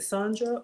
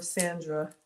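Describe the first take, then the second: First: Sandra pronounced "SAHN-druh"; first vowel as ah. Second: Sandra pronounced "SAN-druh"; short a, like fan. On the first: Host asks viewer which name is right, Sandra said "SAHN-druh". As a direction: say Sandra with ah, rhyming the start with "on". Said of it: "Please correct me". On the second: Host offers viewer the other option, Sandra said "SAN-druh". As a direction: say Sandra starting like the word sand. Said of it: "Sand like fan". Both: Shown as a demonstration.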